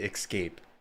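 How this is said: The word is said in a Midwestern way. The speaker calls it wrong. "That is how I say it. I grew up in the Midwest"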